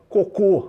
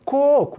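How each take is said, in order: First: The stress is on the last syllable. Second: The stress is on the first syllable. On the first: The speaker calls it wrong. "bota um acento no segundo O" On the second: The speaker calls it right. "Onde é que se prolonga? Coco. Ó, primeira sílaba"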